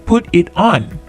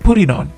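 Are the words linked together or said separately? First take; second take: separately; linked. First: Each word is said separately. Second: The words run together in one go. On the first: The speaker calls it wrong. "bukan put it on" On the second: The speaker calls it right. "Sekali ucap, tetapi put it on"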